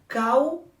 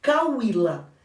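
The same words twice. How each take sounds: First: Cau-í-la split into three separate beats; syllable by syllable. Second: Said in the usual way. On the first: Shown as a demonstration. Teacher splitting the word for her class, Cau-í-la in clear beats. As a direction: spell out Cau-í-la slowly, one syllable at a time. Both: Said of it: "eu vou separar".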